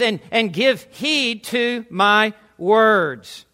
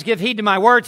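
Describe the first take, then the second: First: Slow, weighty delivery, drawing out each word; slow commanding quote. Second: Said in the usual way. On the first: Acted. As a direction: command their attention word by word. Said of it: "he is commanding". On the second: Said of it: "And he says".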